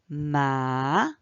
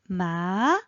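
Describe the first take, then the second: First: The pitch dips low, then rises. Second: The pitch rises from mid to high.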